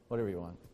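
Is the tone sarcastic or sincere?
sarcastic. It is said in a sarcastic, dismissive tone. The speaker does not really mean it. The speaker calls it wrong. "Sometimes we say it sarcastically"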